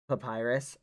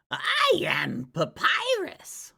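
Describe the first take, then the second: First: Said in the usual way. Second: Loud, high, drawn-out proclamation; Papyrus. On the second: Acted. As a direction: shout it grandly as a cartoon character.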